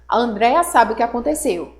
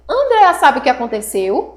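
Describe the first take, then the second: First: It is a statement, falling at the end. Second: It is a question, rising at the end.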